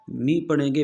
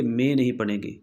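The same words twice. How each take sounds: First: "मी" with a clean, long ee sound and no jerk; correct vowel. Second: "मे" said with an ay sound, the mistake to avoid; wrong vowel. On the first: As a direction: say "मी" as a pure, steady ee. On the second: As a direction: show the error: "मे" with ay instead of ee. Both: Shown as a demonstration.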